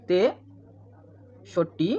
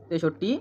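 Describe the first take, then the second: First: তেষট্টি drawn out in two parts, long gap after তে; split into syllables. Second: Said in the usual way. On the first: Shown as a demonstration. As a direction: break তেষট্টি very slowly after its first syllable. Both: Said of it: "তেষট্টিটা হাজার উচ্চারণ হবে".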